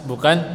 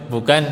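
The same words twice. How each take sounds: The two takes are said the same way.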